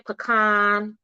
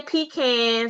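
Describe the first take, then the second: First: "pecan" said PEE-can, the way some viewers say it; other people's pecan. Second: "pecan" said pee-KAHN, the way she was raised; her own pecan. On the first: Streamer mimicking how some viewers say "pecan". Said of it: "Some of y'all say pecan". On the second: Streamer showing viewers her own "pecan". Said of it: "I say pecan". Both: Shown as a demonstration.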